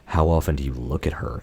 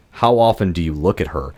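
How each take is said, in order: First: Low, hushed creepy line reading; creepy imitation. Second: Understated creepy line reading; mildly creepy imitation. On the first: Podcaster re-enacting how the mannequin said it, creepily. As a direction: drop low and soft, imitating a creepy delivery. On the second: Podcaster quoting the mannequin's reply, mildly creepy. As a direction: quote it with a touch of creepiness. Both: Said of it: "it was so creepily delivered".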